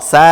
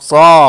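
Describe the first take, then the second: First: The consonant is thin, with the tongue low. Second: The consonant is heavy, filling the mouth. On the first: The speaker calls it wrong. "സീ എന്നല്ല പറയേണ്ടത്" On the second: The speaker calls it right. "എങ്ങനെ പറയണം?"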